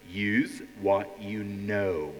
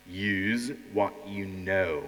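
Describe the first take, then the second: No difference in how they are said.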